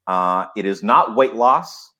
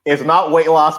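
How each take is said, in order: First: Slow, drawn-out not in "it is not weight loss"; not stretched out, a slow rising tease; stress on not. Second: Not punched higher and louder in "It's not weight loss"; laughing emphasis on the word not; louder stress on not. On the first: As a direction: lean on not, unhurried. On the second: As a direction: hit not hard, grinning through it. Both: Shown as a demonstration. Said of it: "I can't help but have to do it again".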